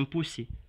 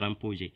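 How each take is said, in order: First: The key consonant is a hissing s sound. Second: The key consonant is not an s sound. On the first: This is how a village Malinke speaker says it. "c'est le son C S qui est là-bas" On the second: This is the expected standard form. "au lieu de dire"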